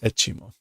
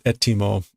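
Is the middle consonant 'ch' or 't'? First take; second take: ch; t. First: The middle consonant is a ch sound. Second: The middle consonant is a plain t sound. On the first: The speaker calls it right. "it's etchimo" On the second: The speaker calls it wrong. "etimo is not etimo"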